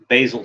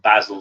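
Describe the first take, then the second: First: The name is said the American way. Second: The name is said the British way.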